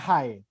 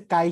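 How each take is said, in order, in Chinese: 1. 这个字以 h 音开头。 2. 这个字以 g 音开头。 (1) "我以为念害" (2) "原来是垓下"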